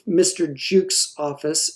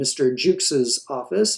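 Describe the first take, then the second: First: The possessive adds no extra syllable. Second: The possessive adds an extra syllable. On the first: The speaker calls it right. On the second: The speaker calls it wrong.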